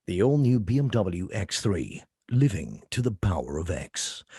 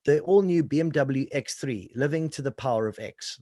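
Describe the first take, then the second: First: Low, slow car-ad voiceover; dramatic, confrontational. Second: Said in the usual way. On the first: Shown as a demonstration. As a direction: give that mean car weight, deep and deliberate. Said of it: "it's dramatic. It's, it's confrontational". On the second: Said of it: "like, I read this thing".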